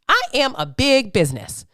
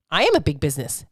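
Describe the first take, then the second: First: Emphatic, stretched "I am"; stress on I. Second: Said in the usual way. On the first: Real, not acted. Repeats it with emphasis.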